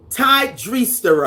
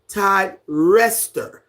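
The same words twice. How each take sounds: First: Dreester said with a long EE, run on from Ty; mispronounced name. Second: Rester with a short E, like REST-er; careful Todd Rester, no EE in Rester; corrected pronunciation. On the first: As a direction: stumble at the name as Ty DREE-ster. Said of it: "trying to pronounce that". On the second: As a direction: say Todd Rester slowly and separately. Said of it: "You say it like". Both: Shown as a demonstration.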